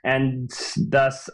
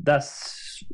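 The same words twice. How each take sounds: First: Said in the usual way. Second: "thus" whispered soft and toneless. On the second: Real, not acted. Host trailing off his argument, whispering "thus". Restarts "thus" in dramatic hush.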